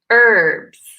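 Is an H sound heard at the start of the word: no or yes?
no. The word begins with no H sound.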